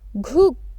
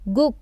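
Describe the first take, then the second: First: The first consonant is strong and full. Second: The first consonant is softened to a plain g. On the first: "it should be pronounced as ghuk" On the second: "its stress will be reduced ... we will pronounce it as g"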